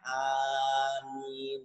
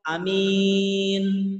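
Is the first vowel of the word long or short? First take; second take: long; short. First: The first vowel is long. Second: The first vowel is short, the second long. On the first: It asks God to answer the prayer. The speaker calls it right. "A-nya dipanjangkan" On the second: It means trustworthy or believe. The speaker calls it wrong. "A-nya dipendekkan, min-nya dipanjangkan"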